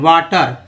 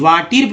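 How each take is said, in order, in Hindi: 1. दूसरा स्वर 'uh' जैसा लगता है। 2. दूसरा स्वर 'ee' जैसा लगता है। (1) "यहाँ अ पढ़ रहे हैं" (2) "वाटिर भी नहीं पढ़ रहे हैं"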